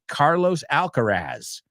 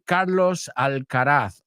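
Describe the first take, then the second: First: The name is said with American pronunciation. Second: The name is said with Spanish pronunciation.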